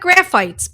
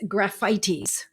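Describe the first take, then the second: First: It is read like an ordinary English word. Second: It is pronounced the Latin way. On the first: The speaker calls it wrong. "It looks like graphites" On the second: The speaker calls it right. "because this is Latin, we pronounce it a little differently"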